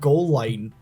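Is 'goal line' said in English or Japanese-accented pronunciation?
English. It is said with plain English pronunciation. "have goal line"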